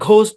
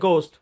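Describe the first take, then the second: First: The first sound is a breathy, aspirated g. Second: The first sound is a plain, unaspirated g. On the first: The speaker calls it wrong. "এটাকে অনেকে ঘোস্ট বলেন, ঘ দিয়ে বলেন" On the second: The speaker calls it right. "গ দিয়ে হবে গোস্ট"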